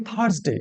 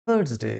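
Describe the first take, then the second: First: থার্সডে with the r sounded, "thars-de"; mispronounced Thursday. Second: থার্সডে with silent r, softly modelled; corrected Thursday. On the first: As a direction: say থার্সডে with a clear "r" before the s. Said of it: "আবার অনেকে অন্যরকম উচ্চারণ করি". (থার্সডে-র ভুল উচ্চারণ, র স্পষ্ট) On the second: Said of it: "এই আর এর উচ্চারণটা সাইলেন্ট থাকে". (থার্সডে-র সঠিক উচ্চারণ, র নীরব) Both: Shown as a demonstration.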